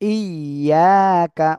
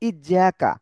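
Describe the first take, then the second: First: The middle consonant is a y sound. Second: The middle consonant is a j sound. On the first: The speaker calls it right. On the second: The speaker calls it wrong.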